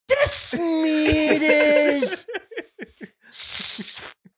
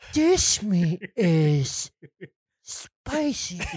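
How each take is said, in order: First: It is said at a louder volume. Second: It is said at a quieter volume.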